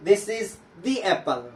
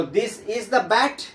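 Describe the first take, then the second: First: "the" long dee, slow. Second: "the" short duh, slow. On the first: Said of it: "उच्चारण किया गया है दी". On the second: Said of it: "पढ़ा गया द". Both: Shown as a demonstration.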